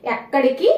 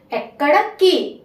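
First: Said in the usual way. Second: एक्कड़ की slowly, with की set apart and stressed. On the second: Shown as a demonstration. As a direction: split off the ending की in एक्कड़ की. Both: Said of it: "को को की".

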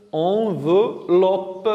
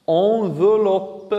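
First: "enveloppe" very slowly split as en, ve, loppe; syllable by syllable. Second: "enveloppe" said slowly as one drawn-out word; slow example word. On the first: Teacher repeats the word to isolate ve, syllable by syllable. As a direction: break "enveloppe" into three drawn-out syllables. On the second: Teacher gives pupils a word containing ve, slow and joined. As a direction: stretch "enveloppe" smoothly, keeping the ve clear. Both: Shown as a demonstration. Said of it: "La syllabe veut comme".

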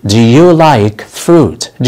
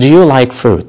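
First: Slow model sentence. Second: Said in the usual way. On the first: Shown as a demonstration. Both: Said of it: "هل تحب الفواكه؟".

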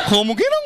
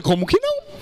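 First: Said in the usual way. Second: High, eager jump in pitch; "Como que não?" thrown up high with excitement; eager exclamation. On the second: Acted. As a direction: leap at the offer, voice shooting up. Eager reply to her offer.

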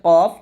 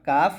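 First: কফ said heavy, no long aa; the correct কফ, full and thick; thick qaf. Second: কাফ said thin with a long aa; the mistaken light কাফ; wrong thin kaf. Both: Shown as a demonstration. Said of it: "not কাফ".

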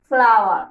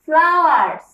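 First: flower said lower and loud, no s; singular modelled. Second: flowers said loud with a clear final s; plural modelled. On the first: Teacher showing a single flower, low singular model. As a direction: drop the s, say flower low and firm. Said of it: "একটা ফুল থাকলে ... আমরা বলতাম". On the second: Teacher showing many flowers, loud plural model. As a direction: stress the s in flowers. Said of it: "ফুল থাকলে আমরা বলবো". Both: Shown as a demonstration.

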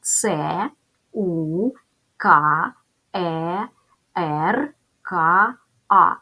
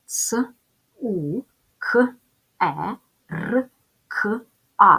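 First: "С, У, К, Е, Р, К, А" spelled as letter names це, у, ка, е, ер, ка, а; name each letter fully, pausing between: це, у, ка, е, ер, ка, а. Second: "С, У, К, Е, Р, К, А" as bare sounds ц, у, к, е, р, к, а; isolated speech sounds. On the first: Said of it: "Називаємо букви". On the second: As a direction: sound out each one separately, short consonants without letter names: ц, у, к, е, р, к, а. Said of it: "Порахуємо кількість звуків". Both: Shown as a demonstration.

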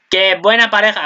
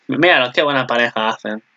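First: Delighted exclamation. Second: Said in the usual way. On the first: Real, not acted. Vlogger gushing at the anime couple on screen, excited. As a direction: gush over the cute pair.

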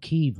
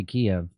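First: "Kyiv" said as one syllable, "keev"; Kyiv pronunciation. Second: "Kiev" said as two syllables, "kee-ev"; Kiev pronunciation. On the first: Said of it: "they say it's called Kyiv now". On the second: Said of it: "I'm still gonna say Kiev". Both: Shown as a demonstration.

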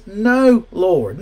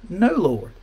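First: Emphatic refusal. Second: Said in the usual way. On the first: Acted. Preacher voicing Peter refusing God, loud emphatic refusal.

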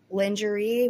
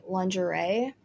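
First: Lingerie said as lin-juh-ree with a short i, ending in ee; her pronunciation. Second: Said in the usual way. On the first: Retold or imitated. Mimicking how the girl in the clip said Lingerie. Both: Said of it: "which is how she pronounced it".

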